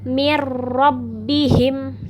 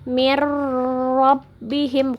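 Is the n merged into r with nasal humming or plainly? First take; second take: plainly; nasal hum. First: The merged n has no nasal hum. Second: The merged n keeps a nasal hum. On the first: The speaker calls it right. "ditasdid tidak dengung" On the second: The speaker calls it wrong. "bukan seperti itu"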